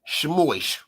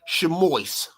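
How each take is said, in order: First: It is said the Yiddish way, ending in -ois. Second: The same.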